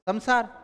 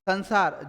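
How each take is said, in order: First: The nasal before 's' sounds like 'm'. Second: The nasal before 's' sounds like 'n'. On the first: The speaker calls it right. "तो बोलना क्या चाहिए था?" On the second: The speaker calls it wrong. "जो कि गलत है"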